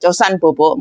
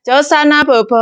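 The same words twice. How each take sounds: First: Gentle, easy bedtime coaxing; soft and pleasant. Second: High, bouncy bedtime call; sing-song coaxing. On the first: Maid gently tells the child to sleep, soft. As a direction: settle the child kindly. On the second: Maid coaxing a child to nap, high and bouncy. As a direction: coax the child up in pitch. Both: Shown as a demonstration. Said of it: "Nadanya lebih enak".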